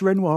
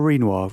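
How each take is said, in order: First: "Renoir" with a short e, REN-wah; "Renoir" pronounced REN-wah. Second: "Renoir" with a long ee, REEN-wah; "Renoir" pronounced REEN-wah. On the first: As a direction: say "Renoir" with first syllable like "wren". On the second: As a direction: say "Renoir" with first syllable like "reen". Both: Shown as a demonstration. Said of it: "is this Renoir or Renoir".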